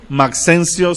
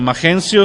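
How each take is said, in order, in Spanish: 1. La x suena como ks. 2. La x suena como una h gutural. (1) "si lo lees como no México" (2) "si lo ves como México"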